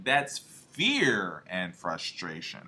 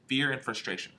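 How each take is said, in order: First: Fear and frustration stretched out low and slow, fear leaned on; slow emphatic fear. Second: Said in the usual way. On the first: Shown as a demonstration. Coach spelling out the F to his audience, slow and stressed. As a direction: draw out fear and frustration, pressing on fear. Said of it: "F and frustration". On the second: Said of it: "All right, listen".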